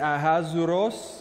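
The name is said with English pronunciation. "there's the English way you can say it"

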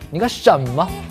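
It is said with a Hunan accent's different stress. "然后我说你干什么？"

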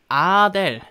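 It is said with Korean pronunciation. "우리말로는 아델"

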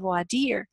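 It is said the French way.

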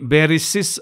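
It has s then a final s sound. "బెరిసిస్ అనేవారు"

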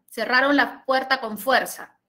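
The pitch falls at the end. It states a fact. "Esta es descendente"

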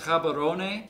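The name has a Setswana-style pronunciation. "In Setswana, I believe it's pronounced Gabarone"

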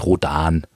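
The name is pronounced the German way. The reader knew little English then. "Insofern war für mich alles Deutsch gesprochen"

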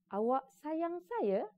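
The phrase ends with emphasis, as a question. It asks whether you love me. "ayat tanya bila ... apabila ada tekanan di hujungnya"

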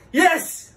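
It is said in an angry tone.

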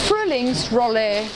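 It is said with an English-sounding R. "Englisch sprechende Schüler sagen es nochmal anders"

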